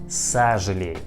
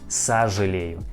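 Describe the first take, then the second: First: The first vowel sounds like 'a'. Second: The first vowel sounds like 'a'.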